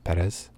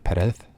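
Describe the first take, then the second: First: The final z sound is hard. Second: The final z sound is soft.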